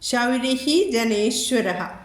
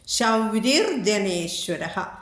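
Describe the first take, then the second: First: The first word ends with a breathy h sound. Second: The first word ends with an r sound.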